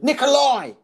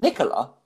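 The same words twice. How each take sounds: First: NIKOLAI called out high and loud; mock exasperated shout. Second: Said in the usual way. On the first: Heckler correcting comic, NIKOLAI shouted high. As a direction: imitate a heckler correcting his name.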